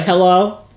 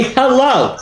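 First: Mock questioning hello, rising; imitating a weak greeting. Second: Slow, firm hello, falling; demanding attention. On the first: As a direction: mimic the tentative hello with amusement. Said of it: "No, you're like". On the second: Shown as a demonstration. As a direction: stretch it out to command notice. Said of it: "Demand their attention".

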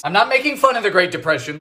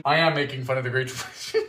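First: Fast, with fun stressed; I'm not making fun, said fast and innocent. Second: Am stretched and stressed, lower and softer, fast; I am making fun, admitting it deadpan. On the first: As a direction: deny it with a quick straight face. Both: Shown as a demonstration.

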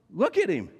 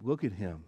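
First: Higher and louder, insisting; urgent plea. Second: Soft, pitying murmur, quieter; sympathetic. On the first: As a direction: force them to look at him. Pilate pleading with the crowd. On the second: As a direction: say it with pity for the broken man. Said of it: "spoken almost in words of sympathy". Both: Retold or imitated.

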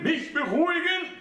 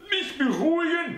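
First: Much higher, outraged echo; high old mother's voice, scornful question; indignant old mother. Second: Put-on much higher, outraged old woman; incredulous high mother's voice; indignant old mother. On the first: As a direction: repeat it in disbelief. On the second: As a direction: throw his words back at him. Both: A narrator's reading.

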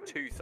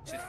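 First: Said in the usual way. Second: "tooth" said the Brummie way; Brummie pronunciation. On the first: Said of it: "Instead of saying tooth, I said". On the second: Shown as a demonstration. Showing a mate the slip into Brummie, "tooth" in Brummie. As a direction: say "tooth" with a Birmingham accent. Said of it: "talking Brummie. Instead of saying tooth".

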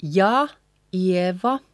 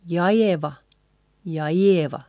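First: Ja, pause, Ieva; ja Ieva in two careful pieces; separate words. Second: Ja Ieva joined as one word, stress on the IE; linked ja Ieva without a gap; combined. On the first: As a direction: keep ja and Ieva apart. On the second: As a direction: run ja straight into Ieva. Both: Shown as a demonstration. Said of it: "again combined".

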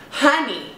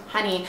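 First: "Honey" sung out high with a falling tune; a diva's knowing "Honey"; sassy "honey". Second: "honey" said softly through a laugh; soft, amused "honey" under a chuckle. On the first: Real, not acted. Sassy dismissal after rhetorical question. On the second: Retold or imitated. Laughing at the agent throwing away her pass.

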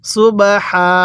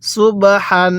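First: সুবহা ending on an open, held "haa"; waqf pausal reading. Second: সুবহান closed on a sounded final "n"; joined reading. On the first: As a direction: drop the final n and stretch সুবহা. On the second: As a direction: pronounce সুবহান in full, ending in "n". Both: Shown as a demonstration. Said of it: "ওয়াকফ করলে কিভাবে পড়ব?".

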